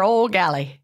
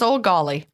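First: "galley" with the short A of "gallon"; "galley" pronunciation. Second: "golly" with the open vowel of "gall"; "golly" pronunciation. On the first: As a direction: say "galley" to rhyme with "valley". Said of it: "Or golly. Maybe it's old golly". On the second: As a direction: say "golly" to rhyme with "dolly". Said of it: "Maybe it's old golly". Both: Shown as a demonstration.

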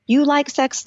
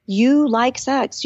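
First: Said in the usual way. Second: You like sex said very slowly, each word pressed; slow insistence. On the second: Retold or imitated. Mother reminding herself after having kids, slow and insistent. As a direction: drive it home to yourself, word by word. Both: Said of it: "I had to tell myself".

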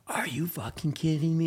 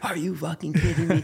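First: Whispered, voiceless disbelief; stunned whisper. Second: Dad's joyful yell. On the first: Runner meeting his dad after the win, whispered disbelief. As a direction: breathe it out in shock. He's just yelling at me. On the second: Dad shouting back at his son after the win, laughing. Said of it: "he's just yelling at me". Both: Retold or imitated.

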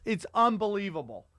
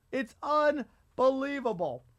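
First: Said in the usual way. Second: "unbelievable" drawn out, slow and higher; emphatic repeat. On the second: Real, not acted.

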